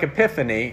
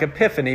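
First: The word is said with a Greek pronunciation. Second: The word is said with a Southern American pronunciation. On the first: "if I were to say it in the Greek" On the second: "if I say it in Arkansan American"

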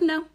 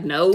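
First: It is said gently and lightly. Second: It is said harshly and sharply.

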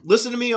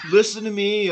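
First: It is read in a plain, normal voice. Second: It is read in a put-on surfer voice. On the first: "No, I can't do that" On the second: "This is the surfer's reading. ... should I read it that way?"

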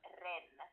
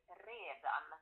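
First: The word is shortened to one syllable. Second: The word is said in full, two syllables. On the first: This is how Finland-Swedish speakers say it. "förkortar inte ordet redan till ren" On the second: This is how speakers in Sweden say it. "De säger alltid redan hela ordet"

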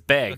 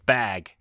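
First: The vowel sounds like the e in 'beg'. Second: The vowel sounds like the a in 'cat'. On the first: The speaker calls it wrong. "He says bag with an E" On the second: The speaker calls it right. "It's bag with an A"

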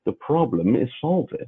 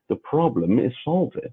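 First: It is said as an Inspector Clouseau impression. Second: It is said as an Inspector Clouseau impression.

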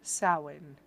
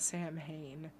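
First: It is said like 'sow-in', without an 'm'. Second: It is said like 'sam-hane', as spelled. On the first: The speaker calls it right. "That's right" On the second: The speaker calls it wrong.

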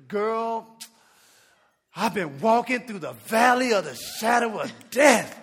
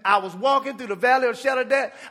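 First: It sounds gloomy, dwelling on hardship. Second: It sounds hopeful, not dwelling on hardship.

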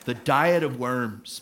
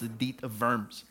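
First: Worms is said like the English word worms. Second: Worms is said with a German v sound. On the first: The speaker calls it wrong. "If you just read it anglicized in kind of English" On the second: The speaker calls it right.

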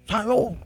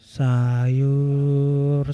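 First: It is called out forcefully and aggressively. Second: It is called out in a melodic hawker's tune. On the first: An impatient buyer is demanding the vegetable seller. "Ngegas dia" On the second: A vendor is calling out to sell vegetables. "misalkan gue jadi tukang sayur, nada gue buat bangunin orang sahur kan jadi aneh"

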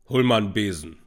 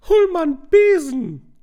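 First: It is said in a deep voice. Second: It is said in a medium voice.

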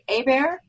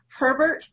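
First: The name is said the Louisiana way, Hebert. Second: The name is said the usual way, Herbert.

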